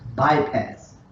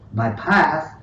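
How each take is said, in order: First: The stress is on the first syllable. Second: The stress is on the second syllable. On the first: The speaker calls it right. "we're putting it on the first one" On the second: The speaker calls it wrong. "not bypass"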